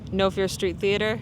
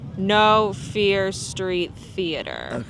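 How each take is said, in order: First: It is said at a normal speed. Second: It is said slowly and deliberately.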